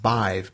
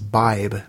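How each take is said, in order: First: The middle consonant is a v sound. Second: The middle consonant is a b sound. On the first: "the goddess name is pronounced Bive, B-I-V-E" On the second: "I had always heard pronunciation was Bibe, B-I-B-E"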